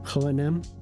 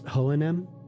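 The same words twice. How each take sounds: First: The name is said with Swedish pronunciation. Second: The name is said with Swedish pronunciation.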